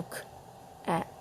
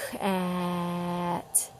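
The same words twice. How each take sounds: First: "k-at" with a break between k and "at"; "k-at" split apart slowly; choppy k-at. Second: "k-at" drawn out as one flowing sound; "k-at" held smoothly; stretched k-at. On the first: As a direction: chop "k-at" into two parts. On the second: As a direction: slide from k into "at". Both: Shown as a demonstration. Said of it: "It's not broken up".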